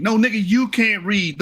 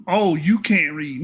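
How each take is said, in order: First: "you" hit hard as a retort; stress on YOU. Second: Slow, quoted taunt; mock accusation. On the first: Real, not acted. Firing the insult back at the misreader, stress on "you". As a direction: turn it round, leaning on "you". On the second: Quoting the misreader's insult back at him, slow mock accusation. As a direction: hand his jibe back slowly, imitating him. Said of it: "you had the nerve to say".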